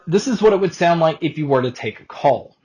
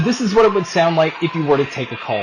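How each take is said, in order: First: The voice is heard with a quiet background. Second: The voice is heard over background crowd noise. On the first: "here is a mic test using the X Round Arrows" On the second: "here is a mic test with a crowd noise being played"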